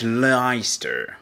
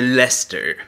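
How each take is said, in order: First: It is said as three syllables, as spelled. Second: It is said as two syllables, like Lester. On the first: This is how it would be read from the spelling. "Czemu nie możemy tego czytać Leicester?" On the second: This is how it is normally read. "to czytamy Lester"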